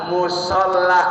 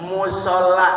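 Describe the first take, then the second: The two takes are said the same way.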